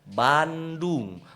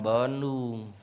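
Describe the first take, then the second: First: The word is articulated clearly with an open mouth. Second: The word is mumbled with the mouth barely open. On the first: The speaker calls it right. "Lihat mulut papi" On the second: The speaker calls it wrong.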